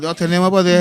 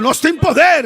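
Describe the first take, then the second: First: It is said drowsily, almost asleep. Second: It is said lively, with enthusiasm. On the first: The speaker calls it wrong. "no lo diga así como casi dormido" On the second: The speaker calls it right. "Dice con entusiasmo"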